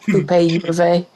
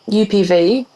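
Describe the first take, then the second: First: The letters are named the Spanish way. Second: The letters are named the English way. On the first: The speaker calls it right. "it's like" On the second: The speaker calls it wrong. "which is not how you pronounce it in Spanish"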